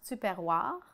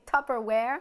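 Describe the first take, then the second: First: It is said with a French accent. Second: It is said with an American accent.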